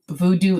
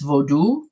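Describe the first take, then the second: First: The word is said the English way, voodoo. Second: The word is said the Creole way, vaudou. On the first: The speaker calls it wrong. "an extremely incorrect pronunciation" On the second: The speaker calls it right. "It's vaudou"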